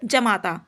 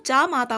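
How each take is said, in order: First: जमाता said with a short first a, ja-ma-ta; जमाता, short opening vowel, as the mistake; wrong form shown. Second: जामाता said with a long first aa, jaa-ma-ta; जामाता, long aa at the start, as the right form; correct form shown. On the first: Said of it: "ये जमाता नहीं होता". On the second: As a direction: stretch the opening of जामाता, jaa. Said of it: "जामाता होता है". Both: Shown as a demonstration.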